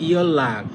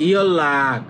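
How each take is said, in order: The two takes are said the same way.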